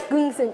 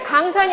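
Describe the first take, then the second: First: The vowels are reduced to weak schwa sounds. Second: The vowels are said full and clear. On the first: "긍슨 이렇게 발음해야 돼" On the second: "강산이 아니라"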